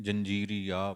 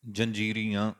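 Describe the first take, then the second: First: ਜੰਜੀਰੀਆ with a plain oral last vowel; wrong oral ending. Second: ਜੰਜੀਰੀਆਂ with a nasal final vowel; nasal ending. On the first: Teacher shows the wrong reading to avoid. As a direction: drop the nasal on ਜੰਜੀਰੀਆ. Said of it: "ਪਾਠ ਨਹੀਂ ਕਰਾਂਗੇ". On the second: Teacher models correct nasal reading, loud. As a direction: end ਜੰਜੀਰੀਆਂ through the nose. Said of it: "ਇੱਦਾਂ ਪਾਠ ਕਰਾਂਗੇ ਆਪਾਂ ਨਾਸਕੀ". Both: Shown as a demonstration.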